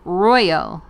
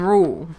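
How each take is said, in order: First: The word is said in a standard accent. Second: The word is said in a regional accent. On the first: "There you go" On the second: "how to say it with my accent"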